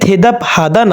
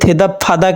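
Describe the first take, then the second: First: The second word begins with an h sound. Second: The second word begins with a p sound. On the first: The speaker calls it wrong. "থেদাপ হাদা না হয়ে" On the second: The speaker calls it right. "বিউপটা হিউতের স্থানে গেলে ব না হয়ে সেটা হবে ফ এর উচ্চারণ"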